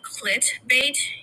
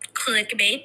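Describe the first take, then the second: First: The first syllable ends with a t sound. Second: The first syllable ends with a k sound. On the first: The speaker calls it wrong. "I feel like I'm going to say like clitbait" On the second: The speaker calls it right. "But bear with me"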